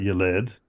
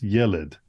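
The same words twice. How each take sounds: First: The stress is on the second syllable. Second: The stress is on the first syllable. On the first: The speaker calls it wrong. "It's not Yeled" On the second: The speaker calls it right. "it's Yeled. So why? Because it's a Sigolet noun"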